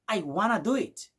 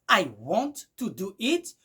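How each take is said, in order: First: 'Want to' is run together as 'wanna'. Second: 'Want to' is said as two full words. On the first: "vous allez écouter du genre I wanna do it" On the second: "qui est I want to do it"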